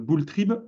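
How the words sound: The name is pronounced with French sounds. "je ne sais pas si je prononce à la française"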